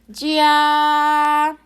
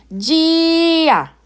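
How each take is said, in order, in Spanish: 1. El tono va sobre la a. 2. El tono va sobre la i. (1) "se escucha muy claro que el tono se está ejerciendo sobre la letra A" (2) "la palabra cambiaría la pronunciación y sería gia"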